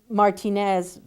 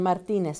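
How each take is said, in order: First: The name is said with an English pronunciation. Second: The name is said with a Spanish pronunciation. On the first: The name is changed to suit English speakers. The speaker calls it wrong. "it's easier for us to change" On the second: The name is said as it was given. The speaker calls it right. "or even trying to say it correctly"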